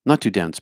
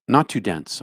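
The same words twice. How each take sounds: First: Put-on a light New Jersey accent, a bit louder. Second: Said in the usual way. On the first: For a chat viewer, playful New Jersey accent. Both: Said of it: "Love the New Jersey accent".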